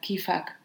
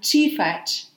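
First: It starts with a k sound. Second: It starts with a ch sound, camp dialect.

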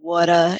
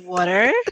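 First: Said in a New York accent, without the R. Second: Said in standard pronunciation, with the R sounded.

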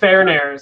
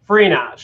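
First: The name is said differently, as Farnares. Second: The name is said in two syllables, Frenosh. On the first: The speaker calls it wrong. "mindlessly saying the wrong thing" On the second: The speaker calls it right. "it's just like two syllables"

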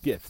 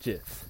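First: The word begins with a hard G sound. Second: The word begins with a J sound. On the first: The speaker calls it right. "They're pronounced GIFs" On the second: The speaker calls it wrong. "not GIFs. If you pronounce a GIF, that's peanut butter"

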